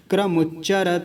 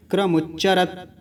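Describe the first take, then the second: First: क्रमुच्चरत ending in an audible "ta"; final vowel voiced. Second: क्रमुच्चरत cut dead on the final t; halant stop. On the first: Teacher showing no halant, क्रमुच्चरत ending in open "ta". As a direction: let क्रमुच्चरत run on into a final "a". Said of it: "अगर हलंत नहीं होता तो क्या बोलते?". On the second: Teacher showing the halant, क्रमुच्चरत stopped on t. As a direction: stop क्रमुच्चरत on t with no vowel after. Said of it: "अभी हलंत है तो कैसे बोलेंगे?". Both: Shown as a demonstration.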